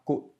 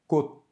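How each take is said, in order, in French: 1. La consonne finale est clairement relâchée. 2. La consonne finale est étouffée et non relâchée. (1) "et non pas" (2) "il prend le son du tigue étouffé"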